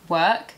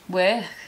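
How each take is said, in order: First: It is said in a southern British accent. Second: It is said in a Liverpool accent. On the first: "in a southern British accent" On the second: "In a Liverpool accent, work changes to work"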